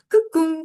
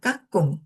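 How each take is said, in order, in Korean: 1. 부산 억양처럼 첫 모음을 좁게 말해요. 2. 표준 한국어처럼 첫 모음을 넓게 열어서 말해요. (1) "부산 사람들이 어 발음이 잘 안 되고 으 발음으로 하는 것 같아요" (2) "까꿍 해야 되잖아요"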